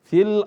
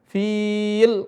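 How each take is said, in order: First: The vowel in fi is kept short. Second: The vowel in fi is held long. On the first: The speaker calls it right. "tidak dibaca panjang, langsung ke lam" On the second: The speaker calls it wrong. "tidak dibaca fil, enggak"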